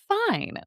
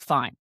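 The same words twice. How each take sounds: First: It sounds bright, bubbly and ditzy. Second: It sounds short, flat and rude.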